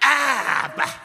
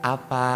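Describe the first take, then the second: First: It is said in a rough, harsh tone. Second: It is said in a soft, gentle tone. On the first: The home feels hostile and angry. The speaker calls it wrong. "Yang kedua neraka sekali" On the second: The home feels peaceful and loving. The speaker calls it right. "suasana sorga"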